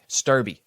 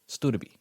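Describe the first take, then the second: First: It is said in two syllables without a d sound. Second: It is said in three syllables with a d sound. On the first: This is how the name looks from its spelling. "It looks like Sturby" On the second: This is how the name is actually pronounced. "that's exactly how it sounds"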